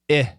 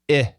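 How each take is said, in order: The two takes are said the same way.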